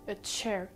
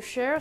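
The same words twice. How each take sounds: First: The word begins with a t-sh sound. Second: The word begins with a plain sh sound. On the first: The speaker calls it right. "ça se prononce comme s'il y avait un T un petit peu au début" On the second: The speaker calls it wrong. "c'est comme s'il y avait un S H à la place"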